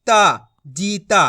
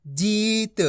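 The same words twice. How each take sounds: First: जीता ending in a long full aa; drawn-out ee and aa in जीता; wrong full final vowel. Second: जीत with long ee, light final t; stretched ee, no aa after the t in जीत; half final consonant. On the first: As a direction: stretch ता and the end of जीता to "taa". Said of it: "ऐसे नहीं करना". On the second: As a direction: draw out जीत, ending on a bare t. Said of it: "आधा उच्चारण करना है". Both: Shown as a demonstration.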